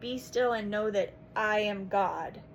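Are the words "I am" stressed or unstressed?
unstressed. The words "I am" are not stressed.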